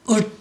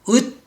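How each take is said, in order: The two takes are said the same way.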